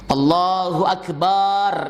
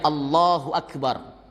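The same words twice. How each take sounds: First: The vowel after b in Akbar is drawn out. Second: The vowel after b in Akbar is short. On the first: The speaker calls it wrong. "potensi batal karena manjangin ba maknanya beda" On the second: The speaker calls it right. "takbir yang benar ya Allahu Akbar. Mudah, jangan panjang-panjang"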